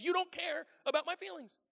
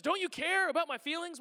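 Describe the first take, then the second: First: "You don't care" as a high, falling accusation; accusing statement. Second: "care" pushed up high in an accusing question. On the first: Spelling out what they're really saying, "You don't care" as accusation. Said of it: "What they're saying is". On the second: Someone looks at you and asks, "care" stressed accusingly. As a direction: lean on "care" as the answer is implied. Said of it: "questions that has the answer implied". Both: Shown as a demonstration.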